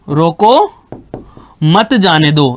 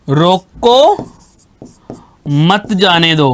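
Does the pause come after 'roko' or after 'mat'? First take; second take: after roko; after roko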